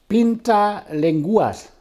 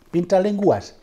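First: "Pinta Lenguas" said high and slow, Spanish style; Spanish pronunciation. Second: "Pinta Lenguas" repeated, a bit quicker, still Spanish; Spanish pronunciation. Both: Shown as a demonstration.

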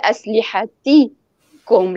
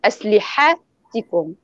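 First: Very slow أسلحتكم with the push on the ت; correct stress on the Ta. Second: Very slow أسلحتكم with the push on the ح; wrong stress on the Ha. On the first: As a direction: spell it out slowly, pressing the ت in أسلحتكم. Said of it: "يضغط على". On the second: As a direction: slowly show the mistake, leaning on the ح in أسلحتكم. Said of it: "ليست". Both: Shown as a demonstration.

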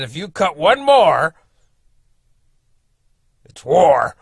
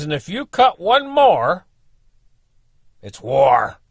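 First: Slow, loud start that drops to a whispered war; retelling the neighbour's threat with a hushed ending; menacing threat. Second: Slow, loud, higher threat ending on a firm war; angry threat. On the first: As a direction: build the threat and then whisper the word war. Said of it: "that's what he said". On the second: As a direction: draw the line slowly and loudly. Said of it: "That's what he said. Quite literally". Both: Retold or imitated.

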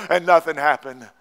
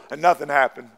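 No difference in how they are said.

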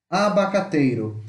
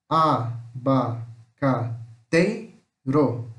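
First: Said in the usual way. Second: "Abacateiro" very slowly as a, ba, ca, tei, ro; syllable by syllable. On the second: Shown as a demonstration. Teacher shows how it separates, "Abacateiro" split into five. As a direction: pause after each syllable of "Abacateiro". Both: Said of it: "O abacateiro se separa assim".

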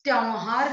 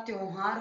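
First: त्योहार said "tyauhaar"; wrong vowel. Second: Said in the usual way. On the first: Shown as a demonstration. Teacher correcting a mistake, त्योहार as "tyauhaar". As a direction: open the o of त्योहार to au. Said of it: "नहीं होता". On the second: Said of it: "होता है".

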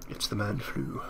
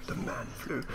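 First: Said in the usual way. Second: Breathy whispered repeat; whispered aside. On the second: Real, not acted. Jokey repeat of a remark.

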